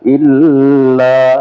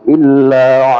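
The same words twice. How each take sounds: First: The l sound is held for a long time. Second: The l sound is passed through only briefly. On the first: The speaker calls it wrong. "tidak terlalu lama pada lam, bukan illa" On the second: The speaker calls it right. "jadi sekedar masuk illa"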